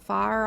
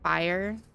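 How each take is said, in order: First: Fire is said as one syllable, like far. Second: Fire is said with extra emphasis on ire. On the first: "I've heard fire pronounced as far before" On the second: "I had extra emphasis on the ire part"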